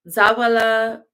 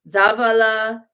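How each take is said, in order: No difference in how they are said.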